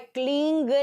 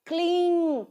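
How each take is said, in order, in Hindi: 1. शब्द का अंत ng ध्वनि से होता है। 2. शब्द का अंत अनुनासिक स्वर से होता है। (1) "क्लींग नहीं है" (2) "क्लीं सही से प्रोनाउंस करना"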